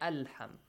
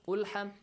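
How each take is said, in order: First: The word begins with an a vowel. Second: The word begins with a u vowel. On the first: The speaker calls it right. "you say alham" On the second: The speaker calls it wrong. "you don't say"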